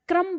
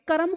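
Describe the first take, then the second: First: क्रम as one syllable, "kram"; half क in क्रम. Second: कर्म said as two syllables, "ka-ram"; full क in कर्म. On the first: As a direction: glide from क straight into र in क्रम. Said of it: "लेकिन हम क्या बोल रहे हैं". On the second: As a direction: put a vowel between क and र in कर्म. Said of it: "अगर हम ऐसे बोलें". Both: Shown as a demonstration.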